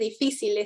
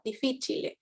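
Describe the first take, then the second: First: It ends in 'cil', like the Spanish word. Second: It ends in 'cile', with an extra final syllable. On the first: The speaker calls it wrong. "no se dice difícil" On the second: The speaker calls it right. "sino difficile"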